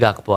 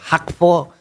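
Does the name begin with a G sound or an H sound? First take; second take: G sound; H sound. First: The name begins with a hard G sound. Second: The name begins with a breathy H-like sound. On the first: This is how local speakers usually say it. "Tapi ya kita Gakpo aja" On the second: This is how it is said in Dutch. "kalau pronunciation Belanda ternyata bacanya kayak Hakpo"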